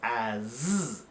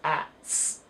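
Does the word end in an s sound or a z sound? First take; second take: z sound; s sound. First: The word ends with a buzzing z sound. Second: The word ends with a hissing s sound. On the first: The speaker calls it right. "We pronounce it as as, a Z sound" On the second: The speaker calls it wrong. "we don't pronounce as ats"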